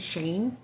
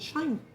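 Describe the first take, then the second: First: The vowel sounds like 'ay' in 'day'. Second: The vowel sounds like 'eye' in 'shine'. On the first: "I hear a lot of people saying Shane" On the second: "a lot of people pronounce it Shine"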